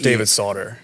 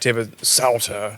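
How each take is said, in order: First: The surname is said the plain, everyday way. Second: The surname is said with a German pronunciation. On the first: "It's just" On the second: "If you're from Germany, it's like"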